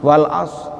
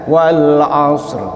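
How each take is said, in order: First: The final r sound is left out. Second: The final r sound is clearly pronounced. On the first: The speaker calls it wrong. "rohnya nggak dibaca" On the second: The speaker calls it right.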